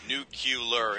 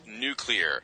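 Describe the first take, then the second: First: The word is said like nucular. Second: The word is said like new-clear. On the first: The speaker calls it wrong. "Nuclear is wrong" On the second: The speaker calls it right. "It's nuclear"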